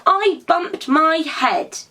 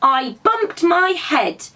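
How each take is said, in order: First: Higher, slow, sulky little rabbit; a grumpy small rabbit complaining; cross little voice. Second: Higher, slow, sulky little rabbit; grumpy small rabbit complaining; cross little voice again. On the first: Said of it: "A rather cross little voice answered". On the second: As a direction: rabbit repeating herself crossly. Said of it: "answered the cross voice again". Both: A narrator's reading.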